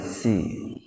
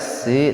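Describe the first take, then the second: First: It starts with a heavy, emphatic s sound. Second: It starts with a plain, light s sound. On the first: This is the reading of the other traditions. "memakai sod" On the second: This is the reading of one recitation tradition. "dengan sin"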